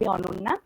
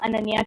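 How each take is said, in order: First: The name is said with a Bengali pronunciation. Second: The name is said with a non-Bengali pronunciation. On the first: This is how the name sounds in its home language. "The Bengali pronunciation is basically" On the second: This is how people from other regions say the name. "to you know people from different parts of the country"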